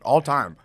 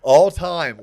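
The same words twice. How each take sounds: First: Excited. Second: Louder mock-grand repeat; loud echo. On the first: Enthusiastic praise. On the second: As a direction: boom it back. Echoing the praise. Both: Real, not acted.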